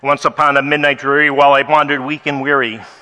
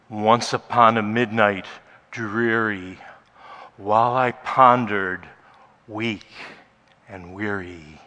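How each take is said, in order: First: It is read quickly without pauses. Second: It is read with long, powerful pauses.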